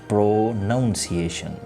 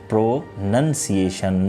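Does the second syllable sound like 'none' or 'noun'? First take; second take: noun; none. First: The second syllable sounds like 'noun'. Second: The second syllable sounds like 'none'. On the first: The speaker calls it wrong. "not pronunciation" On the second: The speaker calls it right. "the correct usage of the word is pronunciation"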